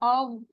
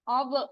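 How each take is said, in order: First: The final consonant ends smoothly without a jolt. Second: The final consonant ends with a bouncing jolt. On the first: The speaker calls it right. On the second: The speaker calls it wrong.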